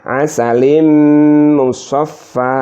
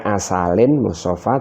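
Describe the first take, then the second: First: The n merges into a nasal m sound. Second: A clear n sound comes before the m. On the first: This is the merged reading actually recited. "dimasukkan menjadi" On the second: This is the underlying form before merging.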